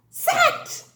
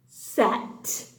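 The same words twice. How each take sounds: First: "sat" in one high, excited burst; triumphant blending. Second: "sat" low, with the final t set apart; sounding out. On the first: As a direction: pop out "sat" high as one whole word. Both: Shown as a demonstration. Sounds out word, then blends.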